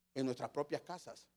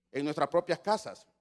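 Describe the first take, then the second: First: Baja la voz en "propias casas" y sube el tono al final. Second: Más fuerte, "propias" marcado con tono que cae; remátalo firme, "En nuestras propias casas"; con énfasis. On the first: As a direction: dilo suave, casi para sí, "En nuestras propias casas". ("propias" dicho bajito con subida al final) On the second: (acento fuerte en "propias" con caída final) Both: Real, not acted. Repite la frase para recalcarla.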